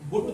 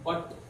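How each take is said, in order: First: The vowel is a short 'oo' sound. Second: The vowel is an 'uh' sound. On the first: The speaker calls it wrong. "యూని ఇక్కడ ఊ అని పలికారు అనుకోండి" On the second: The speaker calls it right. "ఆ అనేటువంటి sound ఉంది"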